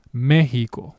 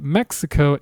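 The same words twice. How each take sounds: First: Mexico said MEH-hi-ko with a breathy h for the x; Spanish Mexico. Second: Mexico said MEK-si-ko with a ks sound; English Mexico. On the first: Teacher showing Spanish: Mexico said with an h sound. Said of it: "the word is pronounced". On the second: Teacher contrasting English and Spanish: Mexico said the English way. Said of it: "Mexico is the English pronunciation". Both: Shown as a demonstration.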